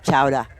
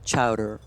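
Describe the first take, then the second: First: It is said in a Boston accent. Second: It is said in a general accent.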